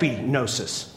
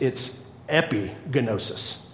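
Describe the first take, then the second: First: The G sound is left silent in the word. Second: The G sound is pronounced in the word. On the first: The speaker calls it right. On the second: The speaker calls it wrong.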